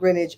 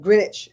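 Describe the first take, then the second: First: The ending sounds like 'age'. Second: The ending does not sound like 'age'. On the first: It is the speaker's own surname. "It's grin like when you're smiling and age like when you're old" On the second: It names the town in Connecticut. "that place over there in Connecticut"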